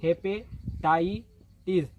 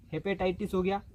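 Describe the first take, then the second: First: hepatitis drawn out syllable by syllable; hepatitis stretched out, each syllable clear; slow spelled-out word. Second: Said in the usual way. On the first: Shown as a demonstration. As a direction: say hepatitis very slowly for students. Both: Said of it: "अब इस H का मतलब hepatitis".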